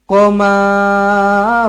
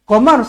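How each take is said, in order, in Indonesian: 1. Bunyi akhir kata ini dipanjangkan. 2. Bunyi akhir kata ini dipendekkan. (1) "Jangan qamar. Ah, jangan macam tu" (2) "Pendek dekat hujung ni ... Qamar sahaja"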